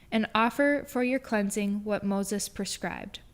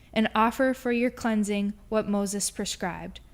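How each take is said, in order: Both takes have the same delivery.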